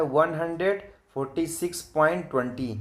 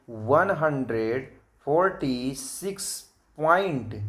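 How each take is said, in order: First: Said in the usual way. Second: "वन hundred forty six point" word by word, stretched out; slow, measured teacher's read-out of "वन hundred forty six point"; model reading. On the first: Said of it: "लेकिन ऐसे नहीं पढ़ा जाएगा". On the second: Shown as a demonstration. Teacher showing children how to read decimals, "point" drawn out. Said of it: "इसको हम पढ़ेंगे".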